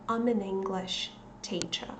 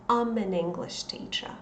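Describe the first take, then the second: Both takes have the same delivery.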